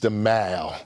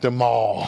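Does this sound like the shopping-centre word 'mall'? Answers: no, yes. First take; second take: no; yes. First: Pronounced differently from the shopping-centre word 'mall'. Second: Pronounced like the shopping-centre word 'mall'. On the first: It names the street by Buckingham Palace. The speaker calls it right. "it's the Mall" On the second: It names a place where you go shopping. The speaker calls it wrong. "not the Mall. ... The Mall is where you go shopping"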